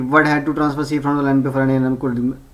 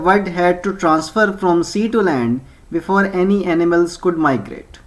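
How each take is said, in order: First: It is read in a fast, rushed, blurred way. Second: It is read slowly and clearly, word by word. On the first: The reader will not understand it and must reread it. The speaker calls it wrong. "ऐसे नहीं पढ़ना" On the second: The reader understands it on the first reading. The speaker calls it right. "तरीका है जी"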